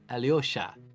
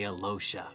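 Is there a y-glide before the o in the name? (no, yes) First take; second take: yes; no. First: The name has a y sound before the o. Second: The name has no y sound before the o. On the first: This is the pronunciation online commenters call proper. "the proper pronunciation of Alosha is Alyosha" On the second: This is the pronunciation the production asked for. "But I say Alosha because that's how we've been told to say it"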